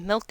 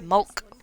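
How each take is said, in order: First: The vowel is a standard 'ih' sound. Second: The vowel is a Scottish 'uh' sound. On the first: "We don't pronounce it milk in Scotland" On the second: "we pronounce it mulk"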